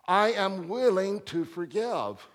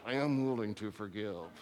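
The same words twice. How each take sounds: First: It is said openly in a relaxed voice. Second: It is said tightly through clenched teeth. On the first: The willingness is sincere. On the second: The willingness is grudging and reluctant.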